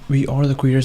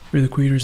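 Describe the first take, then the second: First: We are is said as two full words. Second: We are is contracted into one syllable. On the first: The speaker calls it wrong. "not we are the creators" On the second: The speaker calls it right.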